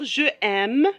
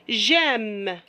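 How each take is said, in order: First: The vowel of je is kept before aime. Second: The vowel of je is dropped before aime. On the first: The speaker calls it wrong. "on ne peut pas dire je aime" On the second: The speaker calls it right. "j'efface e, e et je la remplace par l'accent"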